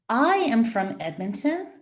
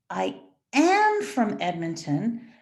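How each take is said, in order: First: The word "I" carries the stress. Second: The word "am" carries the stress. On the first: It is me, not another person, who is from there. "not my friend Bethany" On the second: I am from there now, not just in the past. "not I was from"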